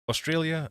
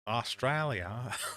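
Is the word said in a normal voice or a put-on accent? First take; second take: normal voice; put-on accent. First: It is said in the speaker's usual accent. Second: It starts in a put-on foreign accent.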